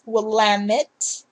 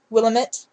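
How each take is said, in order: First: It is pronounced the way locals say it. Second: It is pronounced the way outsiders say it. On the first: The speaker is from the state. The speaker calls it right. "but it's" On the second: The speaker is not from the state. The speaker calls it wrong. "people outside of our state would say"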